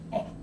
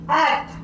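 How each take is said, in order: First: The word is said quietly. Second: The word is screamed loudly.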